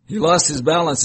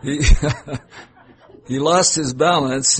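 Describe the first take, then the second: First: Said in the usual way. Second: Laughing. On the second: Real, not acted. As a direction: read it through real laughter. Reader cracks up, restarts line.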